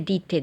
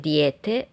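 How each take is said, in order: First: The first vowel is a plain i. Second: The first vowel is a gliding ije.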